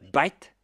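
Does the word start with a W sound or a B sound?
B sound. In an Indian English accent, it begins with a B.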